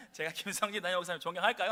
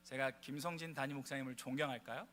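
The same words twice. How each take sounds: First: Louder, faster with a laugh in it; livelier retry. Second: Said in the usual way. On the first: Shown as a demonstration. Pastor re-asks the congregation, louder and laughing. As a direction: pump the crowd up, laughing, quicker. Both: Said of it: "반박자 늦으셨거든요".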